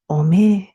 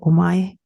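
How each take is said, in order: First: The word ends in a long ee sound. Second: The word ends in an ai sound. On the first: It is used to insult people. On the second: It is not insulting.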